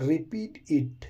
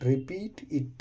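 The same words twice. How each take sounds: First: Said in the usual way. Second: Softer demo of repeat it; softer model repeat. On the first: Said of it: "teacher models the phrase". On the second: Shown as a demonstration. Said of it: "repeat with a changed voice".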